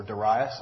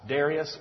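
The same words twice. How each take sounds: First: Darius said duh-RYE-us; duh-RYE-us pronunciation. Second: Darius said DAIR-ee-us; DAIR-ee-us pronunciation. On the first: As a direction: stress the middle of Darius, rhyming with "rye". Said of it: "as I like to say". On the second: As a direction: stress the first syllable of Darius, like "dairy-us". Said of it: "or Darius, as I like to say". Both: Shown as a demonstration.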